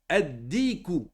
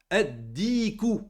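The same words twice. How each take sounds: The two takes are said the same way.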